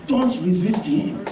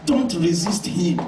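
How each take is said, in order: First: "Don't" stressed with a rise, slow; rising don't. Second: "Don't" hit first and falling, slow; slow, with the weight on "Don't"; stress on don't. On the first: Preacher pleading with the congregation, slow rising "Don't". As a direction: repeat it slowly, lifting "Don't". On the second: Preacher warning the congregation, slow falling stress on "Don't". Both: Shown as a demonstration. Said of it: "God does not like resistance".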